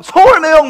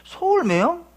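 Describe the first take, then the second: First: High, loud holler after someone; imitated stranger's hail; calling out. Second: High questioning rise, not shouted; acted-out doubtful double take; puzzled echo. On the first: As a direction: shout to catch someone's attention from behind. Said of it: "막 부르는 거예요". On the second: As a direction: repeat it to yourself, baffled. Puzzled reaction to being hailed.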